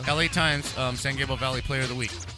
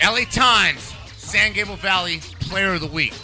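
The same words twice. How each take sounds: First: It is said in a plain, unemphatic way. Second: It is said forcefully, with proud conviction.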